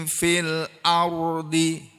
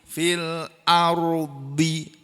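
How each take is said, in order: The two takes are said the same way.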